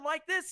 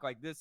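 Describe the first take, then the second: First: The voice is pitched somewhat high. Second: The voice is pitched low. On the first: "at a bit of a higher one" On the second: "at a lower tone"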